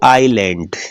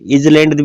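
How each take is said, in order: First: The s is silent in the middle. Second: A z sound is heard in the middle. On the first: The speaker calls it right. "तो बोलते क्या है इसको" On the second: The speaker calls it wrong. "इजलैंड भी नहीं बोलते"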